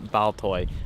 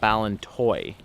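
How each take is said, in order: First: The name is said with two syllables. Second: The name is said with three syllables. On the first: The speaker calls it wrong. "I've been saying it wrong the whole day. Not Baltoy" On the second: The speaker calls it right. "There's an I in there"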